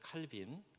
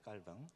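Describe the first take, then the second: First: The name is said as Kal-bin. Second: The name is said as Kkal-baeng. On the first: "여러분이 아시는 칼빈" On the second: "불어식으로 발음하면"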